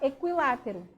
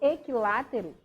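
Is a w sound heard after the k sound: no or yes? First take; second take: yes; no. First: A w sound follows the k sound. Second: No w sound follows the k sound. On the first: "E aí o U, ele entra também" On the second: "eu não estou pronunciando o I"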